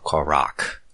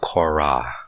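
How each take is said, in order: First: The name ends in a harsh back consonant. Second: The name ends in an open vowel sound. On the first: "the actual pronunciation would be Korak" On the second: "Korah or Korak"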